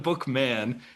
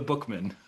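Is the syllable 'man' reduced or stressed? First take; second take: stressed; reduced. First: The syllable 'man' is stressed and kept distinct. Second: The syllable 'man' is reduced and unstressed. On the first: "he's not the book man" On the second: "the de-emphasizing of the man part"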